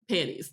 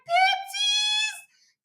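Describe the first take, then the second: First: It is said in a calm, unfazed way. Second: It is said in a flustered, excited way.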